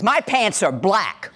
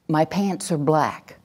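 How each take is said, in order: First: It is said harshly and forcefully, like a threat. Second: It is said firmly and calmly, without doubt. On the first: The speaker dares anyone to disagree. "An aggressive voice is" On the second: The speaker is certain of the fact. "do you hear my tone? Do you hear any doubt"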